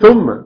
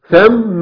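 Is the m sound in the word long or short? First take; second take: short; long. First: The m sound is short, not doubled. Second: The m sound is long and doubled. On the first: The speaker calls it wrong. "لا مش ثم" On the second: The speaker calls it right. "ميم مشددة بالفتح"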